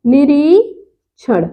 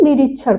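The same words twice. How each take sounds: First: निरीक्षण slow, with a long ree, then chhan apart; शुद्ध उच्चारण. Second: निरीक्षण quick, with a short ri; गलत उच्चारण. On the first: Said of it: "ये होता है निरीक्षण". (निरीक्षण में "री" खींचकर) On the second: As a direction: clip the middle vowel of निरीक्षण. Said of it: "अशुद्ध बोल देते हैं". (निरीक्षण में "रि" छोटा) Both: Shown as a demonstration.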